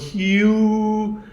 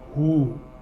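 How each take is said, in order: First: It is said with a 'y' glide before the vowel. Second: It is said with no glide before the vowel. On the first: The speaker calls it wrong. "they're mispronouncing it" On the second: The speaker calls it right. "this sound of the earth"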